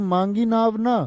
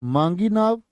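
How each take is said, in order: First: "मांगी नाव ना" as one raised phrase; ना joined to नाव. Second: "मांगी नाव" held apart, without ना; break after नाव. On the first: Teacher contrasts not asking for boat, ना joined to नाव. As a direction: run ना on after नाव, pausing only after ना. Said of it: "यहाँ पर नाव ना मांगने की बात है". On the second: Teacher asks class how to say it, break after नाव. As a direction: stop after नाव, leaving ना for the next phrase. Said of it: "क्या बोलोगे". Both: Shown as a demonstration.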